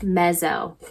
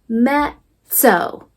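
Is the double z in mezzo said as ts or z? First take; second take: z; ts. First: The double z is a buzzing z sound. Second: The double z is a sharp ts sound. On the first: The speaker calls it wrong. "If if this was an English word, it would be mez, mezzo" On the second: The speaker calls it right. "in Italian, these two Z's, we say it as a quick sizzle"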